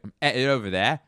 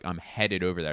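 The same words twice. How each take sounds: First: The H and D in headed are dropped. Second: The H and D in headed are pronounced. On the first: "They drop the H and the first D" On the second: "So instead of like"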